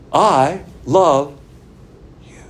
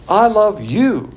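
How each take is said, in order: First: Louder, drawn out I love ... you with a pause; impersonal I love you. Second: Slow, loud and gushing I love you; personal I love you. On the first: Preacher demonstrating impersonal love, slow with a pause. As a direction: leave a long gap before you. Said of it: "it would be like this". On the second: Preacher acting out dear love to the empty seat, slow and loud. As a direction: stretch out I love you with longing, louder. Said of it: "I am the subject, love, transitive verb, you". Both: Shown as a demonstration.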